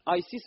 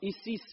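First: The name starts with an 'eye' sound. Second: The name starts with an 'ee' sound. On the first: The speaker calls it right. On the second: The speaker calls it wrong.

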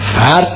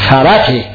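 First: The r is closed with no following vowel. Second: A vowel follows the r before the t. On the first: The speaker calls it wrong. "فرت نیست" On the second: The speaker calls it right.

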